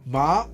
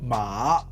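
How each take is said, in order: First: The syllable is said with the second tone. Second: The syllable is said with the third tone. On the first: It means numb. "second tone means numb" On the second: It means horse.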